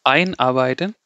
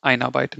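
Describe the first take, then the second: First: EIN emphasized at the front of Einarbeiten; stress on EIN. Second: Einarbeiten tossed off softly with no weight on ein; wrongly unstressed ein. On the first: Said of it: "but I'm emphasizing ein". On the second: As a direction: counterexample einarbeiten, ein passed over lightly. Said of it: "he'll not read like this". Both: Shown as a demonstration.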